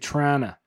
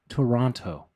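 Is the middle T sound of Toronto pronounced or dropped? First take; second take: dropped; pronounced. First: The middle T is dropped and the word shortened. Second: The middle T is clearly pronounced. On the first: "you're never supposed to say the T" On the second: "I say the T sometimes"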